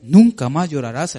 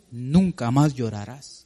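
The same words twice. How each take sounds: First: The promise proclaimed louder; rising proclamation; louder proclaiming. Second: Slow tender promise. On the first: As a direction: declare it to the congregation. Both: Shown as a demonstration. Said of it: "como dice aquí".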